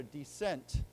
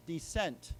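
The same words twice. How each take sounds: First: Dissent said clearly, stress on sent; model word. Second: Dissent said again, clearly, stress on sent; model word, repeated. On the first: Teacher leading students in saying Dissent together. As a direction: say Dissent with the class. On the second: Teacher repeating Dissent with students, clearly. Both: Shown as a demonstration. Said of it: "why don't we say it together".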